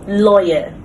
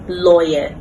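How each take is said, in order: First: The ending is a short weak vowel. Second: The ending is a short weak vowel.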